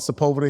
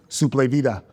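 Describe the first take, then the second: First: The first syllable sounds like 'sep'. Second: The first syllable sounds like 'soup'. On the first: This is how locals say the name. The speaker calls it right. "we call Sepulveda here" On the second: This is how an immigrant father says the name. The speaker calls it wrong. "I was looking for the S O U P, like soup"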